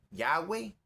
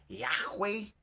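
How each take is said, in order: First: Yahweh said "YAH-way", smooth w; pronunciation variant. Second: Yahweh said "YAJ-wey", throaty h before w; pronunciation variant. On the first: Preacher listing how some say God's name, Yahweh as "YA-way". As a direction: say Yahweh as "ya-we", without any h sound. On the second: Preacher listing a third way to say Yahweh, h sounded hard. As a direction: say Yahweh as "yah-HWAY", h sounded. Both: Shown as a demonstration. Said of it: "algunos dicen Yahweh".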